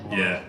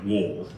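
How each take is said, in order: First: The name is said with a German V sound. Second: The name is said with an English W sound. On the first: "German speakers would pronounce it like Vol or Voller" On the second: "I've opted for an anglicised Wall"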